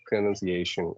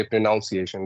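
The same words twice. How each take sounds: First: "pronunciation" with NUN as second syllable, pro-nun-ci-A-tion; correct pronunciation. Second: "pronunciation" wrongly said with NOUN as second syllable, pro-NOUN-ciation; incorrect pronunciation. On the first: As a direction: say "pronunciation" with a short unstressed second syllable, not NOUN. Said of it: "you have to say". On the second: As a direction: say "pronunciation" with the vowel of "pronounce". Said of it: "that is incorrect". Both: Shown as a demonstration.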